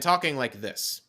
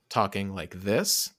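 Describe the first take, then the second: First: The voice is projected, as if to a far wall. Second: The voice is soft, as if close to the microphone. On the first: It is aimed at the opposite wall. The speaker calls it right. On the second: It is aimed at the microphone. The speaker calls it wrong.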